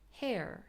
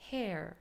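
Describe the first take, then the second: First: The vowel goes straight into a strong r. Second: The vowel goes straight into a strong r.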